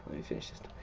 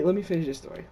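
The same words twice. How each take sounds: First: Breathy whisper to himself; whispered aside. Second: Said in the usual way. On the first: Real, not acted. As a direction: say it under your breath, barely voiced.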